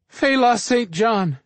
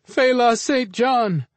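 First: Slow, high, pleading scream of the name; terrified scream. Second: The name screamed again, higher and slower; a second desperate, drawn-out cry; terrified scream. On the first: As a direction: cry out the name in terror. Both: Acted. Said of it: "the couple screamed".

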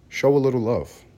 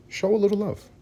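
First: Said in the usual way. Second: Much higher, pleading; higher coaxing plea. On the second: Shown as a demonstration. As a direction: beg sweetly for love. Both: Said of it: "my suggestion is".

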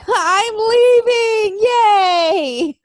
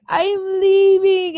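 First: "I'm leaving. Yay." much higher and louder, slow, half-crying with joy; gleeful cheer. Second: "I'm leaving." drawn out slowly, higher, in a lightly mocking tearful tone; mock sad farewell. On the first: Pretend. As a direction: squeal it like a happy escape. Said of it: "I'm sitting there going". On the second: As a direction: imitate the wrestler's slow sad goodbye. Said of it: "I love how he's like".

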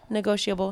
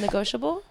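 First: "Negotiable" as ne-GO-shee-uh-bul, softly; trying it with the I. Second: "Negotiable" as ne-GO-shuh-bul, softly; trying it without the I. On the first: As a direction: try out "Negotiable" with an ee. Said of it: "I'm hearing an I". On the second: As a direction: try out "Negotiable" with no ee. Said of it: "there isn't really an I". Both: Shown as a demonstration.

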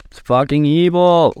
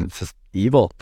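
First: Louder, higher hammed-up evil line; mock outrage. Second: Said in the usual way. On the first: Mocking mainstream media, louder hammed-up outrage. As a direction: ham it up like a melodrama villain.

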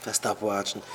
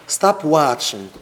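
First: Low, soft "Was stop watching?"; hushed, low-pitched questioning echo; quiet echo. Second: Drawn-out, forceful "stop watching"; emphatic command. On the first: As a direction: drop the voice right down. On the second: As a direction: STOP WATCHING said slowly and firmly. Emphatic command, then softer echo. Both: Shown as a demonstration.

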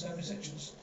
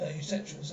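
First: Homosexuals breathed out in an unvoiced whisper. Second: Said in the usual way. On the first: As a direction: drop to a scandalised whisper on homosexuals. Repeats word, second whispered.

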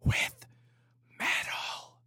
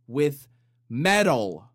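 First: Hushed, breathy retake; whispered repeat. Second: Louder, blurted out; mock shock, louder; loud punchline. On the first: Acted. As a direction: whisper it back. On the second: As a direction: shout the last words. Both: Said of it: "compressor on this microphone".

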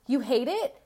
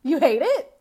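First: A hint of an outraged mother asking; mock parent repeating the teen's complaint; mock indignant parent. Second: Louder and higher, cracking up mid-question; laughing mock parent. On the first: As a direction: toss the question back at the teen with mild scorn. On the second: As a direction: lose it laughing on the last guilt-trip line. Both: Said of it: "you're gonna be like".

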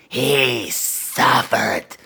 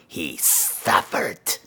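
First: "He suffered" stretched very slow with relish; drawn-out gloat. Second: Low, soft and very slow; sinister slow gloat. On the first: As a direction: drag out "He suffered" with evil pleasure. Repeated, drawn out. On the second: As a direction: savor "he suffered" quietly and slowly. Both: Acted.

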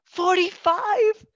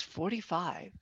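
First: High, loud, slow disbelief; incredulous echo. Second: Put-on soft, worn-out old woman's answer; imitated aged-sounding woman. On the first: Retold or imitated. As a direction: echo the age in drawn-out, high-pitched astonishment. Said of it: "And I went". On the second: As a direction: answer very quietly, as if far older. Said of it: "her voice sounded ninety".

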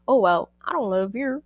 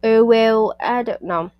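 First: Lightly attempted, clumsy Irish accent; horrible Irish accent. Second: Put-on botched Irish accent with a louder opening; attempted Irish accent. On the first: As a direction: try an Irish accent and do it badly. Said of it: "my horrible attempt at an Irish accent". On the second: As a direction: launch loudly into a bad Irish accent, then falter. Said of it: "Let me try again".

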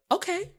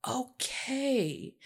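First: High-pitched rising okay; small, high, hopeful reply; tentative acceptance. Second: Soft, higher, falling okay; drawn-out, quiet agreement; dawning acceptance. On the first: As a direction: accept it with a questioning lift. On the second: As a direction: let it sink in, softly. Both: Retold or imitated. Acting out her reassured response.

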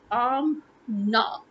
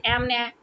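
First: "Amna" slowly split, AHM... NAH; easy syllable breakdown. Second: "Amna" with flat a's, AM-neh as in cat; mispronounced Amna. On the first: Shown as a demonstration. Teaching the easiest pronunciation, slow syllables. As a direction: stretch both syllables of "Amna" apart with open ah. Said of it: "that is the easiest pronunciation ever". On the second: Retold or imitated. Complaining about how others say it, mimicked mispronunciation. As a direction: flatten both vowels of "Amna" to the cat vowel. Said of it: "what is wrong that you have to say".

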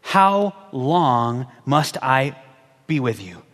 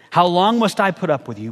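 First: Slow, low, worn-out sigh of frustration; weary Jesus. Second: Said in the usual way. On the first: Acted. Jesus, fed up with the faithless crowd, slow and low. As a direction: drag it out like you've had enough.

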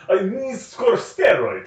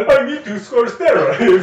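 First: Higher and slow, in broken-English mock accent; mock foreign accent. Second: Much higher, slow and louder in a hammed-up Russian accent; mock Russian accent. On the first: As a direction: drag out each word, playing a foreigner with poor English. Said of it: "doesn't speak English that well". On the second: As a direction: ham up a thick Russian accent. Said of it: "He's not Russian".

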